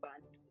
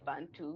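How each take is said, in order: First: The B at the start is soft. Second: The B at the start is hard. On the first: The speaker calls it right. "we say Bantu. The B is soft" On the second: The speaker calls it wrong. "we don't say Bantu"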